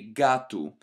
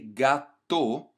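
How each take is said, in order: First: The word ends with a u sound. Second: The word ends with a full o sound. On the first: The speaker calls it right. "you want this U sound at the end" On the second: The speaker calls it wrong. "we don't say gato"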